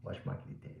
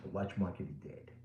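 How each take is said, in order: First: Breathy whisper, no voice at all. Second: Said in the usual way. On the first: Real, not acted. Dealer whispering to viewers that the market is dead. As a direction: whisper it like a secret.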